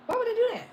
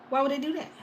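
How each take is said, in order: First: Much higher disbelieving question; high incredulous repeat. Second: Said in the usual way. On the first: Real, not acted. Repeating to viewers, high-pitched disbelief.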